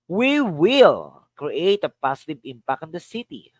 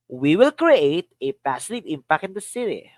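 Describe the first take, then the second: First: The word "will" carries the main stress. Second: The word "create" carries the main stress. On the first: "Here's another. Will" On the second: "Another. Create"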